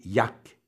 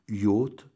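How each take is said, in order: First: The word is said as 'yak'. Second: The word is said in an English-style way. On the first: This is how it was said for a time long ago. "il sera un temps prononcé Yak" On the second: This came from thinking the word was English. "en pensant que le mot était anglais"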